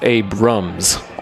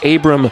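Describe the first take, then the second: First: The name ends with an added s sound. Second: The name ends without an s sound. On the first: The speaker calls it wrong. "people just kind of blend the S's together, and it becomes Abrams" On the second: The speaker calls it right. "It is Abram Street"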